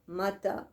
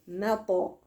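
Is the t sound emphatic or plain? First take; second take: plain; emphatic. First: The t sound is light and plain. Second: The t sound is heavy and emphatic. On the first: The speaker calls it wrong. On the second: The speaker calls it right.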